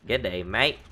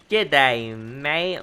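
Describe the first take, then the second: First: Quick, light Australian greeting; Australian accent. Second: Hammed-up Australian greeting after a laugh; Australian accent. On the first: Pretend. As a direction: toss off a casual Aussie G'day. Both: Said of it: "I do love a good Australian accent".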